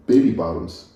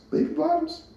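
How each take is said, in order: First: Said in the usual way. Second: Amused surprise. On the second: Real, not acted. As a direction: catch your own silly mistake with a high, quiet question. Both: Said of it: "Baby Boss".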